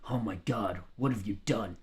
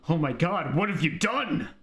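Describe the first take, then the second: First: It is said flatly, with no emotion. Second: It is said with strong, lively emotion.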